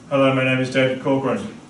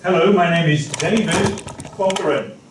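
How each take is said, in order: First: The pitch stays flat throughout. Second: The pitch moves and sounds lively. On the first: The speaker calls it wrong. "speaking in a monotone kind of way" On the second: The speaker calls it right. "try and follow this pattern"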